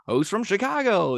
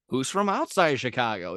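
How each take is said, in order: First: High, loud arena announcer hype; announcer call. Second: Said in the usual way. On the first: Retold or imitated. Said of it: "he's like". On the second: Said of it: "and then, like".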